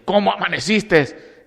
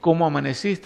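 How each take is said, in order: First: It is said in an angry tone. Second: It is said in a loving, warm tone.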